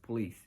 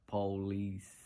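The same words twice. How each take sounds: First: The word is pronounced in the standard way. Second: The word is pronounced in an odd, unusual way. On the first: The speaker calls it right. "this is how you pronounce police" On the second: The speaker calls it wrong. "I pronounced it really weird"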